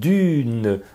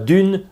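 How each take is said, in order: First: A short final vowel follows the last consonant. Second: The word ends on the consonant, no final vowel. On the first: The speaker calls it right. "Veille bien à énoncer quand même les E muets" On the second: The speaker calls it wrong. "c'est pas dune"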